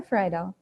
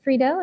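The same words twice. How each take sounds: First: Friedel said as FRY-dell; second pronunciation option. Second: Friedel said as FREE-dell; first pronunciation option. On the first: Chair offering the other way to say his surname, Friedel as FRY-dell. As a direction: say Friedel with an "eye" sound in the first syllable. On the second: Chair asking the new member about his surname, Friedel as FREE-dell. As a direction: say Friedel with a long "ee" in the first syllable. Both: Shown as a demonstration. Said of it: "Is it Friedel or Friedel?".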